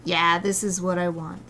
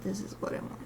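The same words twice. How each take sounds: First: Said in the usual way. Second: Whispered repeat to self; whispering. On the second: Real, not acted. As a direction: drop to a whisper.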